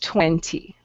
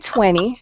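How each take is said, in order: First: The word is said fully, as it is spelled. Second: The word is said without following its spelling. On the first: The speaker calls it right. "if you want to pronounce it correctly, it's twenty" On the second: The speaker calls it wrong. "If you say twenty, um, people will understand you"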